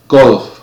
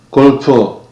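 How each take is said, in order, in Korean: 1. 영어식 발음으로 말해요. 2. 한국식 외래어 발음으로 말해요. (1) "처음에는 제가 쓰는 발음으로" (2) "그 다음에는 한국에서 보통 사용하는 발음으로"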